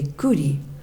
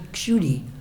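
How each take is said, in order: First: The name begins with a plain k sound. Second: The name begins with a ksh cluster. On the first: This is how Bengali speakers say it. "in Bengali they say Kuti" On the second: This is the original form of the name. "it's actually Kshuti, like Ksha"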